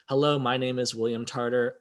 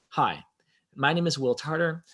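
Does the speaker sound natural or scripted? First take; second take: scripted; natural. First: It sounds stiff, like reading a script. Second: It sounds relaxed and natural, conversational.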